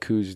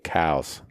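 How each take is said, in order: First: The name does not sound like 'cows'. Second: The name sounds like the word 'cows'. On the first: This is how local people say it. The speaker calls it wrong. "all the locals call it Coues deer" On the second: This follows the surname it is named after. The speaker calls it right. "it's really cows"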